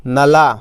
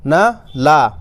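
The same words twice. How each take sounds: First: "नला" joined up, with a long final "ला"; teacher reading "नला" as one word; syllables blended. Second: Short "न", pause, long "ला"; teacher splitting "न ला" into two parts; syllables sounded separately. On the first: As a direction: run "न" straight into a held "ला". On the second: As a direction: break it into "न" ... "ला". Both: Shown as a demonstration. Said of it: "तो कैसे पढ़ेंगे?".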